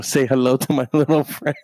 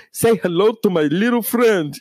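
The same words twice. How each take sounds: First: Laughing quote. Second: Scarface impression. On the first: Retold or imitated. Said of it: "and my aunt". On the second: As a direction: growl it like Tony Montana. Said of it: "It's almost like Scarface".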